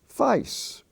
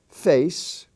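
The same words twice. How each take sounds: First: It is said with an Australian accent. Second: It is said with an American accent.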